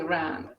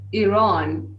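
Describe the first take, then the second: First: The first vowel differs from the one in Italy. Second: The first vowel sounds like the one in Italy. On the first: The speaker calls it wrong. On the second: The speaker calls it right. "this is the right way, like Italy"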